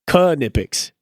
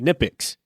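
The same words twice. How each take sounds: First: The initial K is pronounced. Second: The initial K is silent. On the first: This is how the company itself says it. "Like they pronounce the K in in Knipex" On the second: This is how mechanics in the US say it. "we say Knipex"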